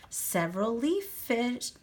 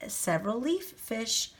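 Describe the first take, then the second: No difference in how they are said.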